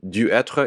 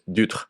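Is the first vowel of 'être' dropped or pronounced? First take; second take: pronounced; dropped. First: The first vowel of être is fully pronounced. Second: The first vowel of être is dropped entirely. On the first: "Instead of du être" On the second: "it was dutre"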